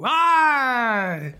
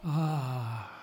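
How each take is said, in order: First: The sigh is loud and forceful. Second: The sigh is soft and gentle. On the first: "Suspiratio viva, c'est très fort" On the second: "But it can be dolce"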